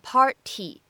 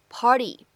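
First: The t is a clear, full t sound. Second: The t is a quick flap sound. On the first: The speaker calls it wrong. "在美式发音当中我们没有读成party" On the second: The speaker calls it right. "而读的是party"

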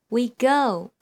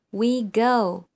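Both takes have the same delivery.

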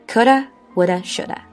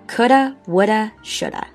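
No difference in how they are said.

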